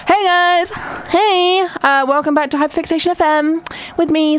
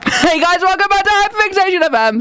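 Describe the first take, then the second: First: Said in the usual way. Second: High-pitched, overwrought radio greeting; mock-hysterical welcome; passionate show intro. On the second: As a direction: greet listeners as if still mid-meltdown. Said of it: "I got a bit passionate there".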